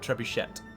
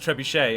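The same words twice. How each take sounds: First: The final T sound is pronounced. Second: The final T sound is silent. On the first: The speaker calls it wrong. "and not trebuchet" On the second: The speaker calls it right. "we don't pronounce the T"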